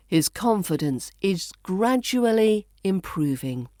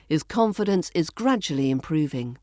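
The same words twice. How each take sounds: First: Careful, spaced reading with "gradually" as GRAD-joo-uh-lee; "gradually" carefully said in full; full pronunciation. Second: Connected reading with "gradually" as GRAD-juh-lee; "gradually" shortened, flowing straight on; reduced pronunciation. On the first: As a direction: give "gradually" all four syllables, unhurried. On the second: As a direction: run it together, "gradually" in three syllables. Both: Shown as a demonstration. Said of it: "which we reduce to".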